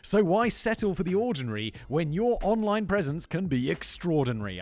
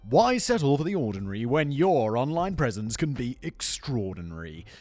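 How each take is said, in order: First: It is said in a normal speaking voice. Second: It is said in a put-on radio-announcer voice.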